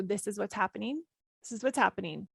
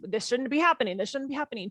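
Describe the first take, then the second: First: Accepting. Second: Resisting. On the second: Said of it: "when I hijack my default rhythm". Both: Shown as a demonstration.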